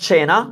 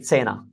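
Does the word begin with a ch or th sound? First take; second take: ch; th. First: It begins with a ch sound. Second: It begins with a th sound. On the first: "instead of cena" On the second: "They put the th sound instead of the ch"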